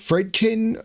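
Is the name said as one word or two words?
one word. The name is run together as one word.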